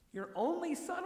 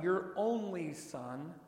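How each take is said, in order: First: Much higher, puzzled question on "son"; incredulous question. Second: Said in the usual way. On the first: Shown as a demonstration. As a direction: pitch "your only son?" up high as if puzzled. Questioning the words in disbelief.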